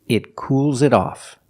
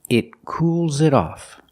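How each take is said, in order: Both takes have the same delivery.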